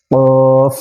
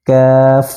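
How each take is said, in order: First: কফ said with force; hard qaf. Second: কাফ said softly and lightly; কাফ with a light touch; soft kaf. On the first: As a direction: strike কফ firmly from the back. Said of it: "কফ এভাবে শক্ত করে পড়তে হবে". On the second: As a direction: ease কাফ out gently. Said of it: "একদম নরম করে এভাবে". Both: Shown as a demonstration.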